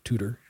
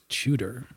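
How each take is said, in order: First: The word begins with a plain 't' sound. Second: The word begins with a 'ch'-like sound. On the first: The speaker calls it wrong. "not Tudor" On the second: The speaker calls it right. "the way that you pronounce the name of the royal family is Tudor"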